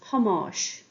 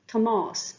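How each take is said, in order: First: The name begins with a changed first sound. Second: The name begins with its plain first sound. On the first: The person is being called on directly. "We also changed the beginning sound of the name" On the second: The name is only mentioned. "Tomás becomes Hamáis"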